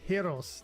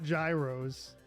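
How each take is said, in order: First: The word begins without a hard J sound. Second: The word begins with a hard J sound. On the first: The speaker calls it right. "That's how you say that" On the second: The speaker calls it wrong. "gyros with a hard J sound"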